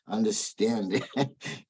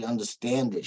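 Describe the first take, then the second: First: "understand" stretched out slowly; slow, deliberate "understand it"; stress on UNDERSTAND. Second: Said in the usual way. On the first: Real, not acted. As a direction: draw out "understand" to correct the word. Corrects "get it" to "understand it.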